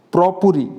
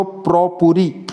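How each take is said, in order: First: Said in the usual way. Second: "પ્રોપુરી" drawn out slowly, syllable by syllable; slow careful repeat. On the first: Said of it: "ઉચ્ચારણ ખાસ જોજો". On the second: Shown as a demonstration. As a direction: slowly spell out "પ્રોપુરી" for students. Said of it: "શબ્દ યાદ રાખજો".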